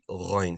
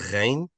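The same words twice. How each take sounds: First: The throat sound is heavy and strongly gargled. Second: The throat sound is light, with little gargling. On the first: The speaker calls it right. "be ghain" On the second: The speaker calls it wrong. "instead of ghain"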